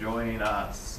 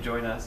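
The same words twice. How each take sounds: First: It is said in a creepy, sinister way. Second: It is said in a plain, neutral way. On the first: It sounds like a sinister lure. "it sounds like join us, and then it just sounds creepy" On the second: A friendly invitation. "I say join us"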